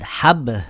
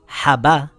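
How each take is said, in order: First: The b ends with only a slight echo. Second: The b is followed by a full a vowel. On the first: The speaker calls it right. "with a slight echo" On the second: The speaker calls it wrong. "with a fatha"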